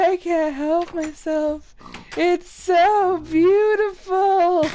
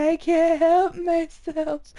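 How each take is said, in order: First: Higher, slow dreamy mock swoon; Bug's Life quote. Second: Higher, slower mock whimper; mock pleading pig. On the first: Quoting Bug's Life, bug drawn to light, mock swoon. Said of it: "on Bug's Life". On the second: Pig voiced as a helpless bug, mock whimper. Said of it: "He's like".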